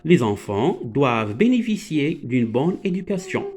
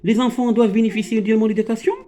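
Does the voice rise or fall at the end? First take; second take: fall; rise. First: The voice falls at the end like a statement. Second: The voice rises at the end like a question.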